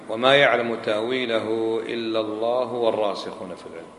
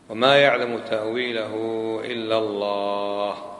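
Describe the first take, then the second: First: The phrase runs on after 'Allah' without stopping. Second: The phrase stops fully after 'Allah'. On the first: The firmly grounded in knowledge also know its interpretation. "لو أوصلنا" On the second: Only God knows its interpretation, not the firmly grounded. "وقف هنا نقطة"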